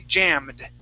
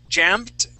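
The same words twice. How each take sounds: First: The word ends with a D sound. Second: The word ends with a T sound. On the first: The speaker calls it right. "we want to say jammed" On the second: The speaker calls it wrong. "instead of saying jammed with the T"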